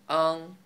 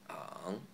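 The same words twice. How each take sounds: First: It is said in the first tone. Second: It is said in the third tone.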